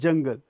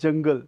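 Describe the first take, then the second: First: It begins with a j sound. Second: It begins with a z sound. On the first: The speaker calls it right. "Here it is required" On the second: The speaker calls it wrong. "We don't say jungle"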